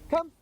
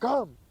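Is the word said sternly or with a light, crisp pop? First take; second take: light pop; sternly. First: It is said short with a light, crisp pop. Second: It is said in a stern, militant way.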